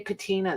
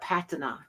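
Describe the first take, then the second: First: It is said with an American pronunciation. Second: It is said with a British pronunciation. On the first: "They don't say patina" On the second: "people from across the pond ... They call it patina"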